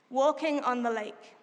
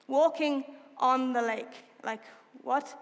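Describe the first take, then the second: First: Said in the usual way. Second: Incredulous repeat. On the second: Real, not acted. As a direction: draw out the words in disbelief. Marveling at the verse.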